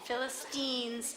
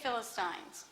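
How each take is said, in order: First: The last syllable sounds like 'teen'. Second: The last syllable does not sound like 'teen'. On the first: The speaker calls it right. "I had to write down the word T E E N" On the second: The speaker calls it wrong. "nobody says it that way"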